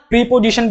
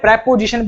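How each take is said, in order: First: The first vowel is a long ee. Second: The first vowel is a short e. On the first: The speaker calls it wrong. "प्रीपोजिशन नहीं" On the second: The speaker calls it right. "अरे प्रेपोजिशन बोलते हैं"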